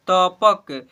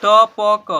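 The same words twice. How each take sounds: First: "तपक" joined as त-पक, loud; blended into one word. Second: "तपक" as "त, प, क", very loud; spelled letter by letter. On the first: Teacher urging pupils to try reading, blended. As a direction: close "तपक" on क. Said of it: "पढ़ने को प्रयास कीजिए". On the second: Teacher urging pupils to spell aloud, letter by letter. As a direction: punch out each letter of "तपक" separately. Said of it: "देखिए हिजे कीजिए ना". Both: Shown as a demonstration.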